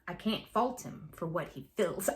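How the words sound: It is spoken with a Southern American accent. The speaker calls it wrong. "I did it with a Southern accent"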